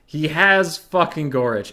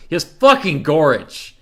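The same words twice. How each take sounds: First: Slower, stress on "has"; emphatic repeat. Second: Loud, high, punching "fucking"; outraged complaint. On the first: Streamer repeating the complaint, stressing "has". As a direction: lean hard on "has". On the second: Streamer complaining about the opponent's hero, outraged. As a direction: blurt it out in disbelief. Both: Real, not acted.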